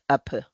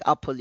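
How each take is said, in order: First: Put-on "apple" said as a small child would, with the l dropped; child's mispronunciation. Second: Said in the usual way. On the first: Shown as a demonstration. Little child talking to mom, mispronouncing "apple". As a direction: say "apple" without its l. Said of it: "you said apple". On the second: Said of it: "instead of saying apple".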